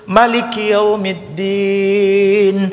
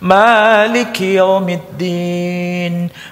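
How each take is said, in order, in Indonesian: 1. Vokal setelah m dibaca pendek. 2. Vokal setelah m dibaca panjang. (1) "Mimnya dipendekkan" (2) "Mimnya dipanjangkan"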